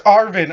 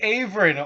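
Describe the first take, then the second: First: The name is said with two syllables. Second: The name is said with three syllables. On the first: The speaker calls it right. "It's Arvin" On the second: The speaker calls it wrong. "I've been saying Averin"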